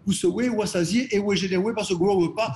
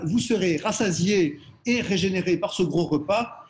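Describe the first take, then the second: First: The R sounds are pronounced as W. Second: The R sounds are pronounced as normal R. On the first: "la lettre R était remplacée par la lettre W" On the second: "la phrase"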